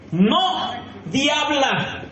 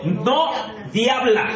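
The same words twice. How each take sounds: First: "no diabla" dragged out very slowly with a laugh; slower, laughing. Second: "no diabla" stretched slowly; slow, drawn out. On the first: Preacher repeating the warning to the women, very slow and amused. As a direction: draw out "no diabla" even more, amused. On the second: Preacher slowly warning the women not to be devils. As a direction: let "no diabla" sink in slowly. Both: Shown as a demonstration. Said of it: "te lo voy a leer en cámara lenta".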